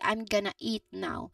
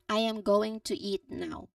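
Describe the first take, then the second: First: Going to blends into one short sound. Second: Each word is said clearly and separately. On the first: "when people speak this sentence naturally" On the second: "the full and proper way"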